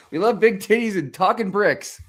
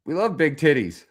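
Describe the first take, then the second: First: Own emphatic echo. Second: Quoted kids' line, mildly voiced; kids' retort quoted. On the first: Real, not acted. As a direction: repeat it louder, pushing on big. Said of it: "repeats the kids' line". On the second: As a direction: toss it off as the kids' reply. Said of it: "These kids are like".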